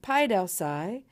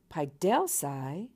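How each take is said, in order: First: The stress is on the first syllable. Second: The stress is on the second syllable. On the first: It is a command: cause to be educated. "recessive all the way to the third to last syllable" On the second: It expresses a wish about a third person. "the alpha iota at the end of the word is long for the purposes of accent"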